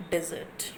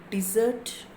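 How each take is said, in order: First: Desert said DES-ert, first syllable stressed; desert with a soft, falling second syllable. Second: Desert said de-SERT, second syllable stressed. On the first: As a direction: put the weight on DES- in desert. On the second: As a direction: stretch and lift the end of desert. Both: Shown as a demonstration. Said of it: "we have seen one example".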